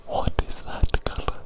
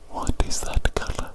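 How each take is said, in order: Both takes have the same delivery.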